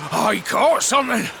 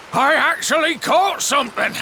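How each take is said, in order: First: Excited catch. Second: Amazed catch. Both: Acted. Fisherman lands a catch.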